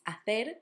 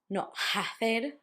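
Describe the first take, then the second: First: The word starts with no h sound. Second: The word starts with an audible h sound. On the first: The speaker calls it right. "if you see an H, it will not have a sound" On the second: The speaker calls it wrong.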